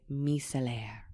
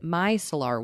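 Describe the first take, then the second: First: The word is pronounced with French sounds. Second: The word is pronounced with English sounds. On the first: "if you are Francophone, you would say micellaire" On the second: "Anglophones would be correct to pronounce it micellar water"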